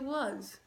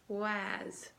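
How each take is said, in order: First: It is said normally, ending in a z sound. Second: It is blended from regular letter sounds, ending in s. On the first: The speaker calls it right. "We say was" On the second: The speaker calls it wrong. "Now I'm going to sound it out"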